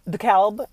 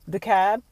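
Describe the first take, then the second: First: The L sound is clearly pronounced. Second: The L sound is left silent. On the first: "rather, like you pronounce the L" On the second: "I'm assuming it's a French word"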